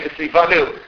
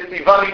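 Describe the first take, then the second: First: The last vowel is pronounced like 'oo'. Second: The last vowel is pronounced like 'ee'. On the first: "they really need to say Vitzivanu" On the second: "That's just their pronunciation becomes Chassidus"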